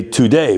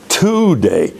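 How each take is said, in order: First: Today stressed on the second syllable, to-DAY; natural stress. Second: Today stressed on the first syllable, TO-day; wrong stress. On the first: Teacher showing the natural word stress on today. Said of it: "Where's the accent?". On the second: Teacher mocking a misplaced downbeat on today. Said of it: "We don't speak that way". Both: Shown as a demonstration.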